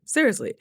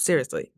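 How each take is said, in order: First: "seriously" pitched up high, then falling; insistent repeat. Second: Said in the usual way. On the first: Real, not acted. Vlogger insisting she went without makeup, emphatic high "seriously". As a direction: punch "seriously" higher to insist.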